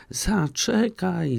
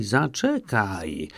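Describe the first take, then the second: First: Much higher, slow drawn-out frog's cry; frog calling. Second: Slow, drawn-out, falling back down; second call, dropping lower; frog calling lower. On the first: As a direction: call after her, stretching it out. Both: A narrator's reading. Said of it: "wołała żaba".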